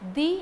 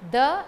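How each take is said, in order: First: It is the long form used before vowels. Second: It is the short form used before consonants. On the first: "the in front of vowels" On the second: "the in front of consonants"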